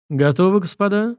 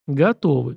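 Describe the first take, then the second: First: Smiling. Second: Said in the usual way. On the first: Acted. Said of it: "с улыбкой спросил Минин". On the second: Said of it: "в один голос ответили мы".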